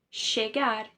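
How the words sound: The double L sounds like sh. This is the Argentine and Uruguayan accent. "Argentina e do Uruguai, esse doble L ... equivale a um C H, a um S H"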